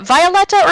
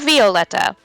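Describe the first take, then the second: First: The name begins like the word violet. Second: The name begins like the word viola. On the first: "the first one ... the flower" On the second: "not the instrument"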